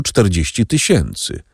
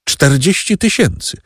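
First: Said in the usual way. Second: Pitched-up indignant cry at the figure; exclaimed in disbelief. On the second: A narrator's reading. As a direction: echo the number back, outraged. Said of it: "zawołała karkątka".

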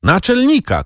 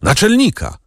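First: Again high, desperate cry; a high, pleading shout of Naczelnika; shouted call. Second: High desperate cry for the chief; a high, pleading shout of Naczelnika; shouted call. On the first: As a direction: keep calling in despair. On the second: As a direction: call out in despair. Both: A narrator's reading. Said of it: "krzyknął".

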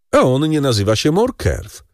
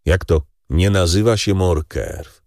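First: Higher, knowing baron voice; Danglars, sly baron. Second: Monte Cristo, feigning surprise. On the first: Baron hints to the count that Morcerf is false, higher. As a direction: drop the secret with relish. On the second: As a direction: echo his words back coolly. Count echoes in disbelief. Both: Acted.

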